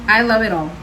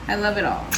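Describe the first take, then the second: First: Louder, stress on "I" in "I love it all"; "I love it all" said loud and proud; emphatic. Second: Said in the usual way. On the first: Shown as a demonstration. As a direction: punch "I" up front, then let it fall.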